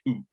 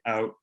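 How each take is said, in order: First: The vowel is pushed up to 'ooh'. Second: The vowel starts raised, as in Michigan.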